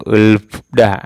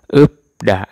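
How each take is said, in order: First: An l and f sound precede da. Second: A p sound precedes da. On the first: The speaker calls it wrong. "bukan ulda atau ulfda. Salah ya" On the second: The speaker calls it right. "Jadinya upda"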